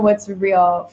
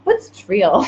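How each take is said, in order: First: Said in the usual way. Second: "real" said as "treal", with a T-R start; accidental word blend. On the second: Real, not acted. Coach tries out her accidental new word, "real" as "treal". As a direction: repeat the slip, "real" becoming "treal", amused. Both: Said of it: "That's a new word".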